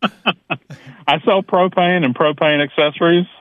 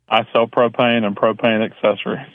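First: It is said with strong conviction. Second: It is said flatly, without conviction.

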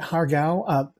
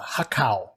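First: The middle consonant is a hard g sound. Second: The middle consonant is a k sound.

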